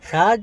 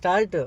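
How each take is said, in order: First: The word ends sharply on a bare consonant. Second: The word ends with an added u vowel. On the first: The speaker calls it wrong. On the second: The speaker calls it right.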